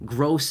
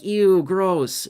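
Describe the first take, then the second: First: Said in the usual way. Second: A grossed-out "Ew, gross", pitched higher and louder; mock disgust. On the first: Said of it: "No, I mean, like, gross as in". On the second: Shown as a demonstration. Joking aside while explaining gross pay, mock disgust. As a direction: toss off a playful disgusted squeal. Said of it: "I'm not saying gross like".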